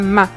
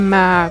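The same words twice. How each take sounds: First: It is said with a sharply falling tone. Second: It is said with a dipping tone. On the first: It is an insult. "Et le quatrième" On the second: It means horse. "Le troisième"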